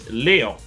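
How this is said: It is said with a French pronunciation.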